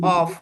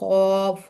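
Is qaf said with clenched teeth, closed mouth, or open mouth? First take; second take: open mouth; closed mouth. First: It is said openly with the tongue root raised. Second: It is said with the mouth closed. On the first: The speaker calls it right. "जबान का जो मोटा यानी जड़ है वो ऊपर की तरफ लगेगी" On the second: The speaker calls it wrong. "मुंह बंद करके, तो ये गलत होगा"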